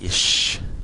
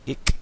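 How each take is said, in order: First: The word ends in an sh sound. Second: The word ends in a hard k sound. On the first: This is the southern German form. "here in southern Germany, they say something like ish" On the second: This is the northern Low German form. "In Low German, they say ich with a k"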